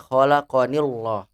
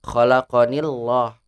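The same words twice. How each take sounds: Both takes have the same delivery.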